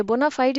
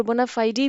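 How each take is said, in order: First: "बोनाफाइड" said bo-na-FIDE, ending on the crisp "-fide" with no final vowel; bona fide, ending "-fide". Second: "बोनाफाइडी" said bo-na-FI-dee, adding a final "-dee" syllable; bona fide, extra "-ee" ending. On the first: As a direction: say "बोनाफाइड" closing on a clipped "d". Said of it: "इसकी pronunciation दो तीन types की है". ("बोनाफाइड" को आख़िरी "फाइड" पर बिना स्वर के ख़त्म करें)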